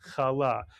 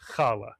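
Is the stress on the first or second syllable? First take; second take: second; first. First: The stress is on the second syllable. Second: The stress is on the first syllable.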